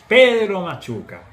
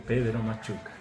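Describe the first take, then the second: First: It is said loudest of all. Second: It is said in a very quiet voice.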